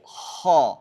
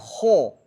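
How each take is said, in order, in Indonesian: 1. Vokalnya bunyi a tebal dengan bibir tidak membulat. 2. Vokalnya bunyi o dengan bibir membulat. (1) "tapi ho" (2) "bukan ho"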